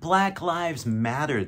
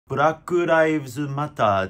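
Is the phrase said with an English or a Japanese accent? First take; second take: English; Japanese. First: It is said with a native English pronunciation. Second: It is said with Japanese katakana-style syllables. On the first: The speaker calls it right. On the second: The speaker calls it wrong.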